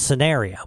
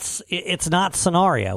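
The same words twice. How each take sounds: First: Scenario is pronounced the American way. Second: Scenario is pronounced the British way. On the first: The speaker calls it right. "It's scenario" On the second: The speaker calls it wrong. "It's not scenario"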